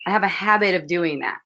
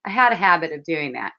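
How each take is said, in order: First: Said in the usual way. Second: Had pressed and lowered in correction; correcting himself, stress on had. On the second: Shown as a demonstration. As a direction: lean on the word had.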